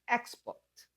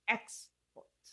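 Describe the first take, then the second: No difference in how they are said.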